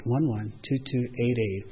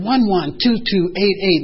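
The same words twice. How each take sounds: First: Said in the usual way. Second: Each number spelled out slowly and loudly; "One one two two eight eight" punched out slowly, digit by digit, loud; emphatic date. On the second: Acted. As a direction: sponsor stating the date, slow and louder. Sponsor reads out the date.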